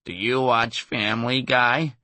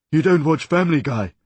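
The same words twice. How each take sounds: First: Slow, drawn-out cartoon voice; imitating a Family Guy character, dragged out. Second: Loud, higher shouting cartoon character; shouted cartoon voice. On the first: Impressionist quizzing the comic after a gig, slow cartoon voice. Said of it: "in what may have been the voice of a Family Guy character". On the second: Impressionist shouting at the comic, loud cartoon voice. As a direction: yell it as an outraged cartoon figure. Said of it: "he shouted ... the voice of another Family Guy character".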